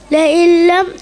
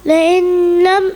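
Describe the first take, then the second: First: The n merges into the l without nasal hum. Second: The n is pronounced separately before the l. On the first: The speaker calls it right. "കൂട്ടിച്ചേർത്ത് ഉച്ചരിക്കണം" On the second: The speaker calls it wrong. "എന്നുച്ചരിക്കരുത്"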